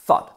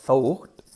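First: "thought" with one open aw vowel; real pronunciation. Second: "thought" read letter by letter, Spanish-style; spelling pronunciation. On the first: Teacher models the spoken "thought", single open vowel. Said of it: "no tiene nada que ver". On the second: Teacher shows how "thought" is written, sounding the letters. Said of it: "sería así, escrito". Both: Shown as a demonstration.

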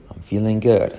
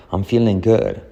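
The two takes are said the same way.

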